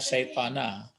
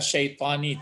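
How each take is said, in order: First: The word ends with an 'a' vowel. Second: The word ends with an 'i' vowel. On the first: The speaker calls it wrong. "tidak syaitana" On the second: The speaker calls it right. "Kenapa dibaca syaitani"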